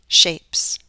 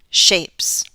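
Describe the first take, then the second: No difference in how they are said.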